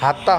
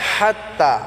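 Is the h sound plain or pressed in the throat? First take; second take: plain; pressed. First: The h is plain and the ending short. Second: The h is pressed in the throat, ending stretched. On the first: The speaker calls it wrong. "হাত্তা হবে না" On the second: The speaker calls it right. "হাটাকে আমরা গলায় চাপ দিয়ে উচ্চারণ করব"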